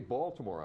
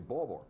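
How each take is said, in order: First: It is said in a standard, non-local accent. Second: It is said in a local Baltimore accent.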